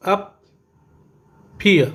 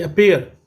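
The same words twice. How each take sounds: First: appear split in two, अ, then peer, with a long pause; appear as two separate beats; syllable by syllable. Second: Said in the usual way. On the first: Shown as a demonstration. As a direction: stop dead between the two syllables of appear. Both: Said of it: "ये टू syllable था".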